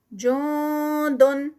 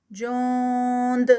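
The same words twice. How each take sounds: First: جوندن drawn out, the ن hidden in the nose; recited continuous form. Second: جوند ending on a bouncing echoed د; recited stop form. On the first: Teacher to students, reciting جوندن slowly. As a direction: chant جوندن slowly with a nasal ending. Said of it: "Quran recitation demo". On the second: Teacher to students, stopping on جوند. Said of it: "یہ اخفا کا نون ہے". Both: Shown as a demonstration.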